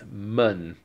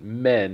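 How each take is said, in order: First: The vowel sounds like 'uh'. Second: The vowel sounds like 'eh'. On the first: The speaker calls it right. "it's mun" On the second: The speaker calls it wrong. "the pronunciation isn't men"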